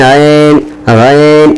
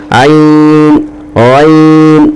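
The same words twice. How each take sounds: First: عین and غین with a muffled e sound; wrong muffled vowel. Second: عین and غین with a clear ee sound; correct open vowel. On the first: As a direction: show the common mistake. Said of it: "تو یہ غلط پڑھانے کا طریقہ ہے". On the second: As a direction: model the right way. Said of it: "یہ ہے معروف". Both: Shown as a demonstration.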